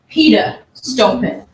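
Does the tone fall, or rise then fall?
falling. The pitch falls across the phrase. "a falling tone"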